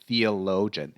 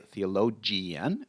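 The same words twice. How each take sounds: First: The ending is a short, clipped 'gen' sound. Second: The ending is drawn out, not a short 'gen'. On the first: The speaker calls it right. "we just say gen" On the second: The speaker calls it wrong. "we don't say theologian"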